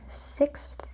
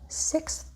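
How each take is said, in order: The two takes are said the same way.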